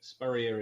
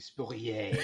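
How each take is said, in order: First: The name is said in an English way. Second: The name is said in a French way. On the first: This is how the name's owner says it. The speaker calls it right. "Spurrier is how I say it" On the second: This is what most people wrongly assume. The speaker calls it wrong. "most people assume my name is some wonderful French thing"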